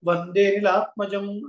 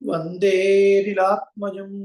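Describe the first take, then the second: First: The vowel of 'de' is short, not lengthened. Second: The vowel of 'de' is drawn out longer. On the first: The hidden a after vande is lost. The speaker calls it wrong. "అని పలకకుండా" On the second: The hidden a after vande is included. The speaker calls it right. "అకార ప్రశ్లేషకు ముందు ఉన్నటువంటి అక్షరాన్ని కొంచెం ఎక్కువగా lag చేయాలి"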